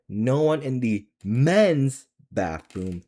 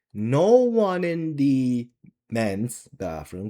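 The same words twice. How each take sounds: First: MEN'S lifted high and drawn out; emphatic repeat. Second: Said in the usual way. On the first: Real, not acted. Vlogger repeating a bathroom complaint for viewers, stress on MEN'S. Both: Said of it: "I'm gonna say it again".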